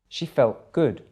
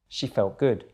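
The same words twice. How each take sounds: First: It is said a little more slowly. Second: It is said at normal speed. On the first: "the second time a little bit slower" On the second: "then at normal speed again"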